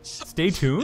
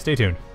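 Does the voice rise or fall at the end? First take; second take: rises; falls. First: The voice rises at the end. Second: The voice falls at the end.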